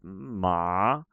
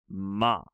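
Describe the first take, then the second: First: The pitch dips down and then rises. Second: The pitch falls through the syllable. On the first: "Like a loop" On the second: "a falling ma"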